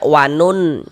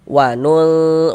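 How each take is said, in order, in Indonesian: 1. Bunyi n diucapkan penuh dan jelas. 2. Bunyi n dibuat samar dan berdengung. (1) "jangan dibaca wanun" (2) "tapi disamarkan"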